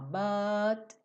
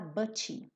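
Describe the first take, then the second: First: The T stops the sound with no vowel after. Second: A vowel sound is added after the final T. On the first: The speaker calls it right. "O T só corta esse som" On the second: The speaker calls it wrong. "nada de falar but"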